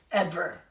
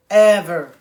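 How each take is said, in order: First: Said in the usual way. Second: Ever said loud and firm; emphatic loud. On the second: Real, not acted. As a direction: punch Ever out, loud and final. Repeating never talking about trauma.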